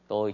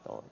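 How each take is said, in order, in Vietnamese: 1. Từ 'tôi' được phát âm với thanh ngang. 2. Từ 'tôi' được phát âm với thanh nặng, thấp, có thanh hầu.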